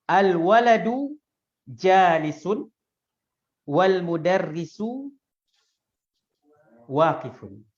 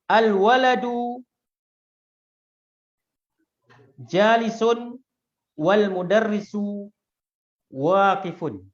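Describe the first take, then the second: The two takes are said the same way.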